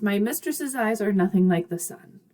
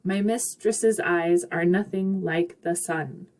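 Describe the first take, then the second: First: Said in the usual way. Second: Slow, measured beat on "My mistress's eyes are nothing like the sun", every second syllable stressed; slowed da-DUM rhythm through "My mistress's eyes are nothing like the sun"; skippy iambic stress. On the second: Shown as a demonstration. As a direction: lean on "mis", "eyes", "noth", "like", "sun". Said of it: "It kind of feels a little skippy".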